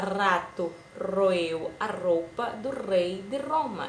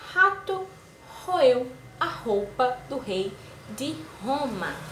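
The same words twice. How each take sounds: First: The R sounds are light, tapped or trilled. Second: The R sounds are strong and intense. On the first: The speaker calls it wrong. "A gente não fala rato roeu a roupa do rei de Roma. Esse aí seria o som tremido" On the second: The speaker calls it right. "A gente fala com o som forte"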